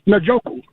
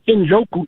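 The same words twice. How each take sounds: First: The name starts with a consonant sound. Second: The name starts with a vowel sound. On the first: The speaker calls it right. "it starts with a consonant sound and not with a vowel sound" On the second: The speaker calls it wrong. "His name is not Njoku"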